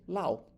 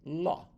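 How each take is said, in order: First: The vowel glides like 'ow'. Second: The vowel is a plain 'oh' sound. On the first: This is how a learner misreads it. The speaker calls it wrong. "o aluno que está querendo aprender lendo ali e vai ler Lau" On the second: This is the actual English pronunciation. The speaker calls it right. "A mais W também tem som de O"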